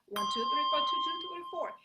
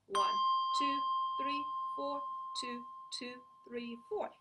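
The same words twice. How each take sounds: First: The counting is said at its fastest. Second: The counting is said very slowly.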